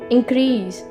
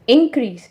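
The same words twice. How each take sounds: First: The stress is on the second syllable. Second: The stress is on the first syllable. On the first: The word is used as a verb. "अगर as a verb use हो रहा है तो हम इसे कहेंगे increase" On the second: The word is used as a noun. "अगर as a noun use हो रहा है तो हम इसे कहेंगे इंक्रीज"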